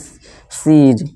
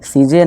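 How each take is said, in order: First: The word ends cleanly on the z sound. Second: The word ends with an extra vowel after z. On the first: The speaker calls it right. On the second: The speaker calls it wrong. "सीजे नहीं"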